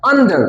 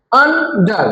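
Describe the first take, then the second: First: Said in the usual way. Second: আন্ডার as UN, pause, DAR; broken into syllables. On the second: Shown as a demonstration. Teacher demonstrates two syllables to class, আন্ডার broken apart. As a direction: split আন্ডার into two separate beats. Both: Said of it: "দুইবার উচ্চারিত হয়েছে".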